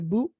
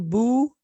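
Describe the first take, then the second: First: The vowel is short, held one beat. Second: The vowel is drawn out and held longer. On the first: The speaker calls it right. "एक हरकत के बराबर खींचेंगे" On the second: The speaker calls it wrong. "नहीं पढ़ सकते, वो गलती होगी"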